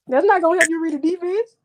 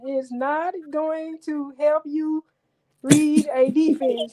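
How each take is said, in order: First: It is said at normal speed. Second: It is said slowly.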